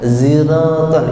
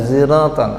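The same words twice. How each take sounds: First: It begins with a plain z sound. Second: It begins with a sound between s and z. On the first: "ada yang pakai langsung za" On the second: "ada yang pakai ada antara sod sama za"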